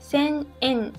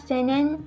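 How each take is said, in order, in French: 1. Les deux mots restent séparés, avec une pause. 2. Les deux mots se collent en un seul. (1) "c'est sen en" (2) "On ne dit pas senen"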